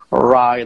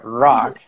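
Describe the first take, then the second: First: The r is said with rounded, protruded lips. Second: The r is said without lip rounding. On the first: The speaker calls it right. "There needs to be actually this kind of protrusion" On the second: The speaker calls it wrong. "you cannot say rock"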